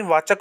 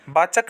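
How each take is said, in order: First: वाचक as "vaa-chak"; correct v sound. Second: वाचक as "baa-chak"; wrong b sound. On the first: Teacher giving students the right form, clear v. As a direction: start वाचक with v. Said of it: "होता है". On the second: Teacher showing students the mistake, b substituted. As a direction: start वाचक with b. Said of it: "नहीं". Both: Shown as a demonstration.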